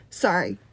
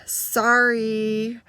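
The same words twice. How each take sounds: First: Short, low, grudging sorry; insincere apology. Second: Long, drawn-out reluctant sorry after a sigh; forced second apology. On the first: Girl made to apologize to the others, insincere and curt. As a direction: toss off an apology you don't mean. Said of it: "I don't think you meant that". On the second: Girl told to mean it this time, drawn-out and reluctant. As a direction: drag the apology out as if made to repeat it. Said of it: "maybe mean it this time". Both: Retold or imitated.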